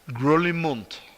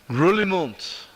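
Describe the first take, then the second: First: The name ends with a 'munt' sound. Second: The same.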